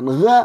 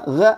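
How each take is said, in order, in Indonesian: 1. Suku kata itu diawali dengan bunyi g keras. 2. Suku kata itu diawali dengan bunyi g keras.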